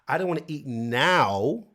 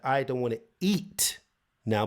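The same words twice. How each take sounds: First: The stress falls on the word now. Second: The stress falls on the word eat. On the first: The speaker might want to eat later instead. "which is okay, but is it later you want to eat?" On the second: The speaker might want to drink instead of eat. "but maybe I want to drink"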